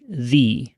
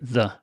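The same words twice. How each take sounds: First: The vowel ends in a Y-like glide. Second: The vowel has no Y-like glide at the end. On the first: The next word starts with a vowel sound. "If the next word starts with a vowel sound ... then we are going to say the" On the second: The next word starts with a consonant sound. "These words all start with consonant sounds, so we say the"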